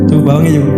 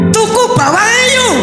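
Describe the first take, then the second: First: It is said in a flat, unexpressive voice. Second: It is said in a lively, expressive voice. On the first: Only the words carry the message. The speaker calls it wrong. "ucapan itu pun hanya tujuh persen" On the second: The tone of voice adds to the message. The speaker calls it right. "kalau ada nada suara itu tiga puluh delapan persen"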